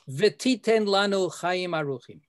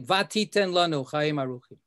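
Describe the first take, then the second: First: The first word begins with a bare v sound. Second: The first word begins with a full va sound. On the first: It asks for something in the future. The speaker calls it right. "And please give us long life. Future tense" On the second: It says something was already given in the past. The speaker calls it wrong. "That's wrong. That says you gave us long life"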